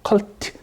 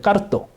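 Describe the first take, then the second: First: It is said as keolteu, Korean-style. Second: It is said as kkareuto, Japanese-style. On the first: "컬트라는 거예요" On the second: "이게 발음이 안 돼서 그러는 건데"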